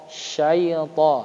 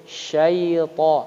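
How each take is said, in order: The two takes are said the same way.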